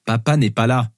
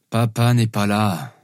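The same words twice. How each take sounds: First: Said in the usual way. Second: Slow, muffled sleepy-dad voice. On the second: Acted. Father under his pillow to his daughters, muffled. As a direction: mumble it slowly as if under a pillow. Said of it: "dis-je, ma voix étouffée".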